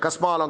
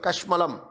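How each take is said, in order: First: The word has an 's' and a long vowel. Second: The word has an 'sh' and short vowels. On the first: This is the local slang form. "Madras பாஷையில் வந்து கஸ்மாலம்" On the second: This is the original Sanskrit form. "கஷ்மலம் அப்படின்னா சமஸ்கிருதம்"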